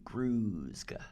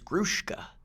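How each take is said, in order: First: The consonant before the k is a plain s. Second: The consonant before the k is an sh. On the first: "it's Gruska. S Z" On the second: "that whole school S H thing"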